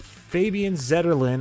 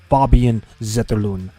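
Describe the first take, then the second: First: The name is said with an American English pronunciation. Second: The name is said with a native Swedish pronunciation. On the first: "I'm going to say it the way we say it" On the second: "how to say his name in his native language"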